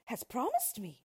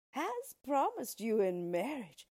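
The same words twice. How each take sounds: First: Startled princess cutting in; higher-pitched disbelieving question; incredulous interruption. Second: Slow, emphatic dwarf announcement; measured, weighty declaration; dwarf's announcement. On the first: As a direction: throw it back in disbelief. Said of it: "interrupted the princess". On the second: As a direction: announce it slowly, higher and louder. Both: A narrator's reading.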